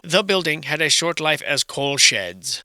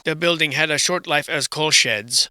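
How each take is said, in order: First: Slow, deliberate mock reading; mocking slow recital. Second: Said in the usual way. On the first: Ridiculing a student's submission, slow mocking recital. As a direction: spell it out word by word, slowly.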